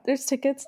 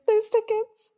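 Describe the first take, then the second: First: Said in the usual way. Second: A sudden jump up high on "there's tickets"; excited squeal. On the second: Retold or imitated. Fan spotting cheap tickets, pitch leaps up in excitement. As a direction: squeak it out like you can't believe your luck.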